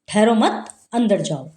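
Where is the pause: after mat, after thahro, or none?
after mat. There is a pause right after the second word. The listener is told to go inside without waiting. "कह रहा है कि आ जाओ, अंदर आ जाओ"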